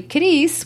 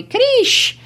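First: Said in the usual way. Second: Krish, ending on sh instead of s; Cris said as Krish. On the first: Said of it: "instead of calling me Cris". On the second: Shown as a demonstration. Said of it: "they call me Krish".

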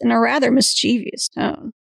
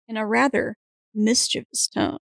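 First: "mischievous" said mis-CHEE-vee-us, four syllables. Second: "mischievous" said MIS-chuh-vus, three syllables; careful "mischievous", stressed on MIS, no ee sound. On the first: Real, not acted. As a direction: stress CHEE in "mischievous", adding an ee before us. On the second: Shown as a demonstration. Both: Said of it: "I always say that word wrong".

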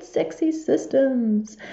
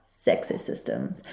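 First: "sexy" stretched very slowly, a bit higher; drawn out. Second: Slow sultry whisper of "sexy systems". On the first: Host repeats her catchphrase, drawn out slow and playful. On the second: Host teases listeners with a slow whispered "sexy systems". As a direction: breathe "sexy systems" slowly like a secret. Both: Acted.

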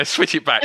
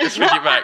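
First: Said in the usual way. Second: Repeated high and laughing; mock protest through laughter. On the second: Real, not acted. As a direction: laugh it out the second time. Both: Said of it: "You're interviewing me now".

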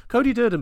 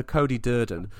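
First: Much higher and louder, a hyped-up call of the name; excited repeat. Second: Said in the usual way. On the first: Real, not acted. Host repeats the fighter's name to his co-host, hyped and loud. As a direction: belt out Cody Durden like a ring announcer.

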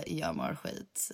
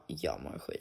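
First: Much lower, softer and slow; gloomy low drop. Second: Sudden drop to a much lower, softer voice; gloomy low drop. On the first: Copying the vlogger line back, much lower, softer, slow. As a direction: drag it out low and deflated. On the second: Vlogger mock-moaning to followers, much lower and softer. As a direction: sink the line low and quiet. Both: Retold or imitated. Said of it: "that's you".

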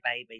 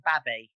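First: Said in the usual way. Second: "babby" with short a, as in "cabby"; short-vowelled "babby". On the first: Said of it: "We wouldn't say baby". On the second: Shown as a demonstration. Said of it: "so we'd say babby".

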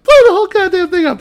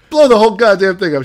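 First: Very high, loud, fast screech; shrieking mock echo. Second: Loud, high, fast mock yell; retold shout. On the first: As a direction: parrot the threat in a piercing mock-female yell. Retold woman echoing him at higher pitch. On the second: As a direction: bellow the bluff like a movie cop. Retold man shouting the threat.

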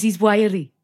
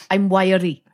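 First: Hammed-up Welsh accent. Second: Light mock Welsh accent; a hint of Welsh, imitating. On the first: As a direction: imitate a Welsh lilt. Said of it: "He goes". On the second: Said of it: "Gene Hackman doing a Welsh accent".

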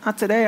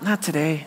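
First: Mock refusal through a laugh. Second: Quiet refusal. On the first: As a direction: toss it off with a chuckle. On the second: Retold or imitated. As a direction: shrug it off under your breath. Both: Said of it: "Here I am, God".

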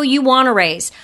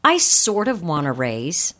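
First: Firm statement, falling at the end; declarative. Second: Low, tentative, rising at the end; weak hedging. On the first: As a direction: state it outright with no hedge. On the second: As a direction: hedge it, lifting the ending like a question. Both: Shown as a demonstration. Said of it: "the words that weaken".

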